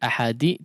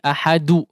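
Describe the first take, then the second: First: The final d is followed by an 'i' vowel. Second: The final d is followed by a 'u' vowel. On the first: "tidak seperti ahadi" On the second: "tidak juga seperti ahadu"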